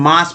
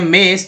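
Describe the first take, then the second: First: The vowel sounds like 'ah'. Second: The vowel sounds like 'eh'. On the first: The speaker calls it right. "यहाँ पर मास पढ़ना उच्चारण होगा" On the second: The speaker calls it wrong. "अगर ए पढ़ते हैं मेस तो गलत हो जाता है"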